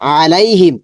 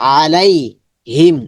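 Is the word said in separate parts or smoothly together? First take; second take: together; separate parts. First: The word is said quickly in one go. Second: The word is broken into two separate parts. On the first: "এখানে এই পুরোটা শব্দই দ্রুত করতে হবে" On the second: "একটু একটু করে বলবো"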